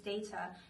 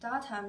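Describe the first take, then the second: First: The word is said with a non-New Zealand vowel. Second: The word is said with a New Zealand vowel.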